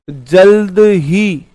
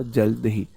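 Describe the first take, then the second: First: Very slow, stretched जल्द ही; drawn-out emphasis. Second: Low, soft जल्द ही with falling end; quiet repeat. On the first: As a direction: stretch both words of जल्द ही out loudly and slowly. Teacher stretches the key word. (जल्द ही को खींचकर, धीरे-धीरे) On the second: Same word repeated softly, lower. (जल्द ही धीमी, नीची आवाज़ में) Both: Shown as a demonstration.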